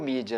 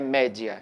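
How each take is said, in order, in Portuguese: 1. A primeira vogal soa como 'ee'. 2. A primeira vogal soa como 'eh'. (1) "no inglês é pronunciado como mídia" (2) "na pronúncia do latim é, é média"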